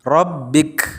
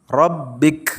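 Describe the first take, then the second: Both takes have the same delivery.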